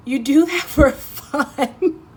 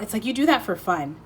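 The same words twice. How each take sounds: First: Higher, slow, laughing tease. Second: Said in the usual way. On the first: Acted. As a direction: draw it out through a laugh. Teasing the listener.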